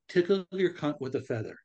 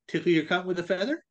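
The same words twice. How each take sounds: First: It is said at normal speed. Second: It is said quickly.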